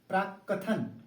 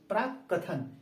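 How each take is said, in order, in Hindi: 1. बीच की k ध्वनि दोहरी है। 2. बीच की k ध्वनि दोहरी है।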